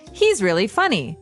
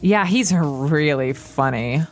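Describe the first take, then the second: First: It is said sincerely, meaning he is funny. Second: It is said sarcastically, meaning the opposite.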